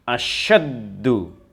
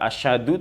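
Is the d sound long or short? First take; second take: long; short. First: The d sound is doubled and held. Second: The d sound is short and single. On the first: The speaker calls it right. "tetapi asyaddu" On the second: The speaker calls it wrong. "tidak boleh dibaca asyadu"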